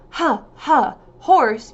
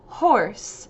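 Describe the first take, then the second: First: An uh vowel follows each H sound. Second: The H sound has no vowel after it. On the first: The speaker calls it wrong. "instead of saying huh, huh, horse" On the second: The speaker calls it right. "Make sure there's no uh at the end"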